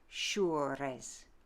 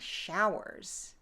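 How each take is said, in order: First: It has a French vowel and rolled R. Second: It has a modern vowel and plain R.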